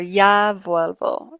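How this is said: The first word starts with a 'y' sound. "without the Castellano accent"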